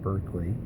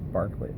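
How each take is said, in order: First: The first syllable sounds like 'burk'. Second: The first syllable sounds like 'bark'. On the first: The speaker calls it wrong. "It's not Berkeley" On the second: The speaker calls it right. "Barkley is pronounced Barkley"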